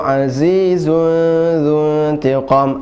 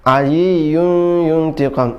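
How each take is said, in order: First: The consonants are said with a buzzing z sound. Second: The consonants are said with a y sound. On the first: The speaker calls it right. "zai zai kemudian dzuntiqu za" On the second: The speaker calls it wrong. "zai menjadi ya"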